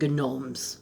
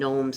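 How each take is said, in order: First: The word starts with a hard G sound. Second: The word starts with an N sound, G silent. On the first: "I like to pronounce the G" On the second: "I don't call them gnomes"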